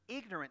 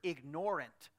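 First: The stress is on the first syllable. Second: The stress is on the second syllable. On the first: Lacking knowledge. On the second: Willfully ignoring something.

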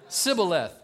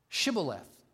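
First: The word begins with a plain 's' sound. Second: The word begins with an 'sh' sound. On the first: The speaker is from Ephraim. The speaker calls it wrong. "They couldn't make the SH sound" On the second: The speaker is from Gilead. The speaker calls it right. "that's the way the Gideonites pronounced it"

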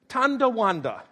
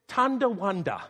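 First: A d sound follows the first syllable. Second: A d sound follows the first syllable.

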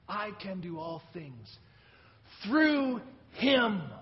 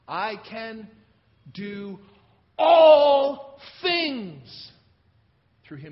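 First: The word "Him" is stressed. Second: The word "all" is stressed. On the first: The power comes from Him, not the speaker. "It's all about Him. It's not about me" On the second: Everything is included, not just some. "All things, not some things or a few things"

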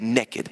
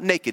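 First: The word is said in a Southern way. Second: The word is said in a standard way. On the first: Completely and utterly without anything. "If you just moved here to the South, that's a word. That is a level from being naked" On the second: Simply without clothes. "Not naked"

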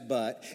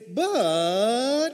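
First: The word is said plainly, without feeling. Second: The word is said warmly, with hopeful feeling. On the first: It simply introduces a contrast. The speaker calls it wrong. "It's not just but" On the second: Something better is coming despite the darkness. The speaker calls it right. "with a glimmer of hope in there"

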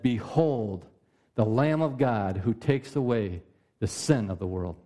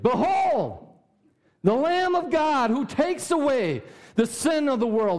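First: It is said flatly, without exclamation. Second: It is said excitedly, as an exclamation.

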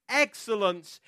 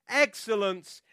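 Both takes have the same delivery.

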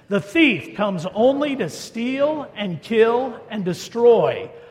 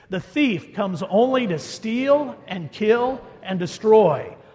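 First: It is read with some added passion. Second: It is read in a plain, even manner.

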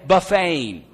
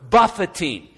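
First: The middle syllable sounds like 'fay'. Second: The middle syllable sounds like 'fit'. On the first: Eating at a buffet. The speaker calls it wrong. "I did not say buffeting" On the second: Striking or battering the body. The speaker calls it right. "Notice how I pronounce that word"

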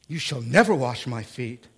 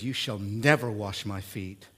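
First: It is said forcefully, as an exclamation. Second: It is said calmly, without force.

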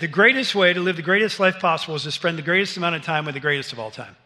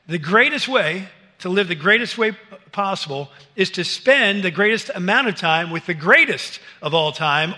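First: It is said at a normal pace. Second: It is said slowly and deliberately.

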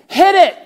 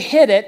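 First: It is shouted boldly and confidently. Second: It is said hesitantly and nervously. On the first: The rider feels no fear. The speaker calls it wrong. "you don't say it like that" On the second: The rider feels apprehensive. The speaker calls it right. "I still have this apprehension"

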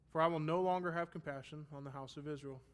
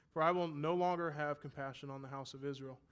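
Both takes have the same delivery.

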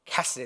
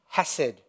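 First: The first sound is a rasping guttural sound. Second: The first sound is a plain, soft h.

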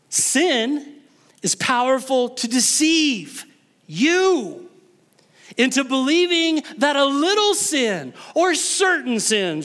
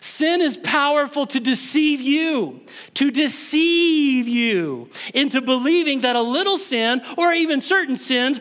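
First: A pause breaks the sentence at an awkward spot. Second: The sentence is phrased without the awkward pause. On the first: The speaker calls it wrong. "I think I paused in the wrong spot there" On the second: The speaker calls it right. "I can do that better"

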